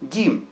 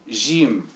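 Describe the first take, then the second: First: The word begins with a hard g sound. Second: The word begins with a soft j sound. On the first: This is how northern Egyptians say it. "au nord, par exemple, il dit Gim" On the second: This is how southern Egyptians say it. "plutôt au sud, ils disent J"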